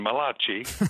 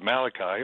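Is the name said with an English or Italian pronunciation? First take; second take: Italian; English. First: The name is said with an Italian pronunciation. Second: The name is said with an English pronunciation.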